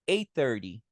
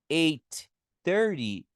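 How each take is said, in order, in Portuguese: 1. O primeiro t é omitido, unindo as palavras. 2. Os dois sons de t são pronunciados separadamente. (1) "eu posso falar" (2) "se eu falei aqui"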